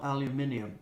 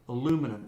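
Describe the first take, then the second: First: The word is said with five syllables. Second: The word is said with four syllables. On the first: The speaker calls it wrong. "not aluminium" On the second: The speaker calls it right. "that's the correct pronunciation for all you people in England"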